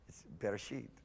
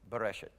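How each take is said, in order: First: The final syllable has an 'ee' vowel. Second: The final syllable has a short 'e' vowel. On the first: The speaker calls it right. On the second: The speaker calls it wrong. "I used to pronounce Bereshit, Bereshet. It's wrong"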